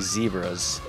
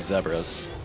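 First: It uses the American pronunciation of the word. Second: It uses the non-American pronunciation of the word. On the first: This is how it is said in the United States. "I live in the United States, so I say zebras" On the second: This is how it is said outside the United States. "But the rest of the world seems to say zebras"

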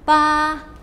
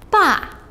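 First: The pitch stays high and level. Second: The pitch falls sharply from high.

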